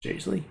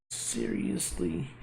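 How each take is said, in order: First: Said in the usual way. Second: Unvoiced rising "Seriously?" said slowly; whispered seriously. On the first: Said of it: "first take of the word". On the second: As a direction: breathe "Seriously?" softly with a rise. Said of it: "whispered retake of the word".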